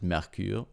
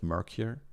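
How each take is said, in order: First: The word is said with a French pronunciation. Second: The word is said with an English pronunciation. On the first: The speaker calls it right. "I know the company is French, right? So I suppose you pronounce it" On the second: The speaker calls it wrong. "instead of"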